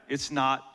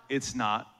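Both takes have the same delivery.

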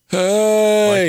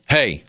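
First: It sounds like a groaning zombie. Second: It sounds irritated.

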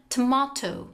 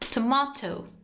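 First: It is said with a British accent. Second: The same.

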